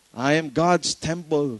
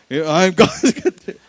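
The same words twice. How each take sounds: First: Said in the usual way. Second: Laughing misquote. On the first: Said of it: "Not cathedral, ha? Temple". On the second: Shown as a demonstration. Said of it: "Not cathedral".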